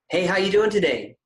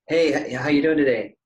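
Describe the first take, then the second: First: The greeting sounds attentive and present. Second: The greeting sounds absent and distracted.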